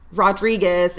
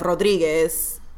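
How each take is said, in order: First: The name is said with an English accent. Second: The name is said with a Spanish accent. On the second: "instead of"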